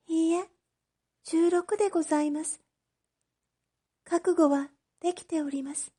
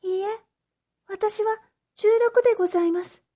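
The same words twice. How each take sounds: First: High, softer, quietly determined; a girl at peace with her sentence; resigned young girl. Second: High, quick, firm insistence; a girl refusing the way out; resolute young girl. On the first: Oshichi telling the magistrate she is ready, high and soft. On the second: Oshichi correcting the magistrate, high and firm. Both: Acted.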